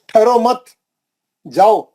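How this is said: There is a pause after the second word. Don't stop, go. The speaker calls it wrong. "यहाँ आके रुक गए आप मत पे"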